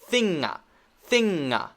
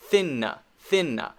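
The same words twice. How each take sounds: First: "thinga" with an extra uh after the ng; wrong added vowel. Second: "thinna" with an extra uh after the N; wrong added vowel. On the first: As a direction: deliberately tack an uh onto "thinga". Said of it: "if I say this one like this". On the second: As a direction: deliberately tack an uh onto "thinna". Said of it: "Now it's easy to tell". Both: Shown as a demonstration.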